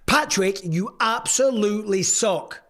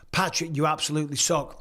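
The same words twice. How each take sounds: First: It is said in an aggressive trash-talking voice. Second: It is said in his normal reading voice.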